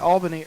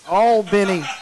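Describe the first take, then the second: First: Albany is said the way New Yorkers say it. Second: Albany is said the way South Georgians say it. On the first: This is how the listener had said the city's name. The speaker calls it wrong. "I heard you say Albany earlier" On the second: This is how the city's name is said locally. The speaker calls it right. "here in South Georgia, it's Albany"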